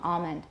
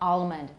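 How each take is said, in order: First: The L is only a tensing of the tongue back. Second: The L is pronounced as a full, complete L. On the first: "A lot of people have velarization for that L" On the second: "But it's not"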